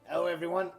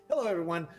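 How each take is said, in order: First: It is said in an unusual, hoarse voice. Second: It is said in his normal, clear voice.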